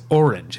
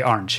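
First: Orange said as or-inj, two syllables; plain. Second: Orange said as ahrange; Saint Louis orange. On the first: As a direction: orange with an or vowel. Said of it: "it's two syllables and it's an O R". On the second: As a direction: orange with an ar vowel. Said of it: "the Saint Louis would say orange". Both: Shown as a demonstration.

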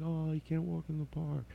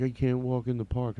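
First: Higher and much softer, tender pity; soft, high sympathetic echo; pitying murmur. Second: Said in the usual way. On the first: Retold or imitated. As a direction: coo it softly, like pitying him. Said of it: "I'm like". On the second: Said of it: "He's like".

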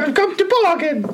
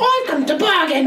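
First: High, overdone mock Cockney; bad Cockney. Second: High mock Cockney line; bad Cockney.

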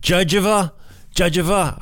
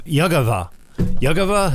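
First: Judgeva said like "judge" plus uh-va; high, unsure Judgeva with a J start; trying a pronunciation. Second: Yugava with a Y start and hard g, YUG-uh-va; puzzled attempt at Yugava with a hard g; trying a pronunciation. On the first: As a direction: test out Judgeva as JUDGE-uh-va, puzzled. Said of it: "I don't, I don't know". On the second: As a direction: sound out Yugava as YUG-uh-va, then question it. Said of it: "I think it's Yugv". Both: Shown as a demonstration.

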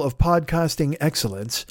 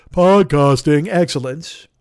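First: Said in the usual way. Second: Slow, louder, booming promo voice; podcasting excellence, drawn out like a trailer announcer; grand announcer read. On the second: Shown as a demonstration. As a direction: savor each word like a movie trailer.

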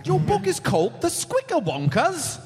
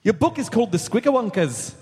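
First: Attempted Scottish accent. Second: A Scottish attempt that slides into Irish brogue; "Your book is called The Squicker Wonkers" in a clumsy mock Irish lilt; accidental Irish accent. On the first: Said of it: "only try Scottish". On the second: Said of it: "Nope, that's Irish".

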